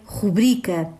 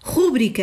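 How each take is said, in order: First: The stress is on the second syllable. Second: The stress is on the first syllable. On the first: The speaker calls it right. "A pronúncia correta é rubrica ... acento tónico na penúltima sílaba, bri" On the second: The speaker calls it wrong. "rúbrica é outro erro de pronúncia muito comum"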